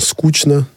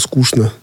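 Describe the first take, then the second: First: The middle consonant is pronounced as 'ch'. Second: The middle consonant is pronounced as 'sh'. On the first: This is the newer pronunciation that matches other words. "Все чаще мы слышим «скучно»" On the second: This is the traditional pronunciation being replaced. "вместо «скучно»"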